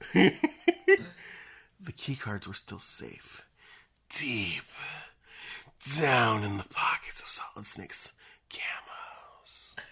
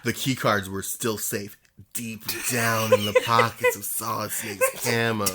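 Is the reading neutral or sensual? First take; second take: sensual; neutral. First: It is read in a slow, sensual way. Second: It is read in a plain, neutral way.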